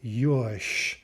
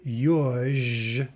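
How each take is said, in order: First: The word ends with a voiceless SH sound. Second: The word ends with a voiced ZH sound. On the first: "but we say yush" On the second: "is what we're writing"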